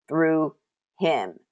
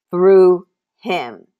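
First: Said in the usual way. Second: Loud punch on "Through", then "him"; "Through" belted out as the key word; emphatic repeat. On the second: Real, not acted. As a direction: drive "Through" home forcefully, pause before "him". Preacher repeats phrase for emphasis.

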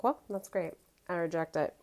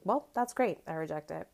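First: Dry sassy dismissal; dismissive retort. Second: Dismissive. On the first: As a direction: shut her down, deadpan. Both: Retold or imitated. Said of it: "I've been saying that all week".

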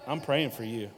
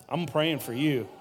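Both takes have the same delivery.

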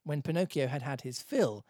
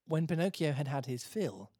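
No difference in how they are said.

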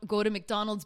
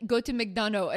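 First: Said in the usual way. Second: Put-on "McDonough" with swallowed French-accented ending; louder imitation of a French bartender's muddled English; heavy French accent. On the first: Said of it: "he's saying go". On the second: Bartender recommending where to eat, heavy French accent. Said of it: "very heavy accent".

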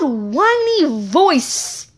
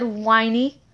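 First: Drawn-out whiny "whiny voice". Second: Said in the usual way. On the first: Shown as a demonstration. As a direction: stretch "whiny voice" in a slow whine. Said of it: "Her loud". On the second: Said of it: "Peyton said, whiny".

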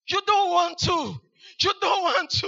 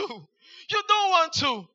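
First: Shouted warning. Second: Drawn-out warning. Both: Shown as a demonstration.

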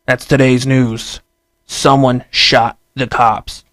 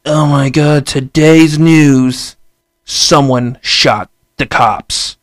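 First: Said in the usual way. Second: Slow, louder mock newscaster drama; mock news anchor. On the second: News anchor selling the headline to viewers, slow mock drama. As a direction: hype the headline like a sensational anchor, drawn out. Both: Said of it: "the news be like".

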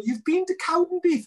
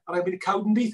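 First: High, louder incredulous squeak on "You've been to Cowdenbeath?"; mock disbelief. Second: Said in the usual way. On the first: Scotsman doubting a Welshman went to Cowdenbeath, high incredulous. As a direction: play the Scot who can't believe it.

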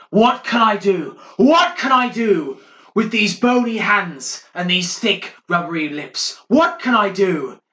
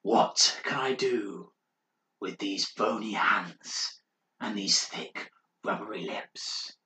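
First: A much higher, much louder wailing cry; mad monk shouting. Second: Slow, breathy whisper of a mad monk; eerie whisper. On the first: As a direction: howl it through the walls like a madman. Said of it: "Morris starts shouting through the walls". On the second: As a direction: creep out the listener with a slow ghostly whisper. Mad monk's eerie chant. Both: Acted.

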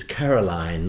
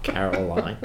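First: "Caroline" drawn out to rhyme with clothesline; slow, careful "Caroline", last syllable "line"; corrective pronunciation. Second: "Caroline" in a broad, twanged caricature; mimicked mispronunciation. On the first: Retold or imitated. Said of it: "like clothesline". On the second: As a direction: mockingly say "Caroline" the mistaken, broad way. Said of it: "Not Caroline".

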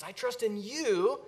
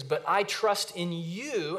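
First: I trust in you with I and you pressed, slow and higher; stress on I and you. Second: Said in the usual way. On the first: Shown as a demonstration. Preacher to congregation, pressing I and you. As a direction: lean on I and on you. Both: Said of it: "the I and the you are emphatic".

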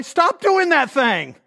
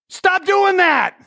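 First: Slow, emphatic mock order; blunt mock advice again. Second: High, slow mock bark; blunt mock advice. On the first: Pastor repeats his joke advice to Shelley, slow emphatic order. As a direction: hammer each word. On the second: Pastor mocks his own blunt counseling, slow high bark. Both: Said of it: "something stupid like".

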